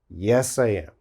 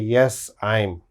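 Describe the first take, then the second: First: I am is said in full, two words. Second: I am is contracted to one syllable. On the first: The speaker calls it right. "It is only yes, I am" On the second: The speaker calls it wrong. "This is wrong. You can't use a contraction here"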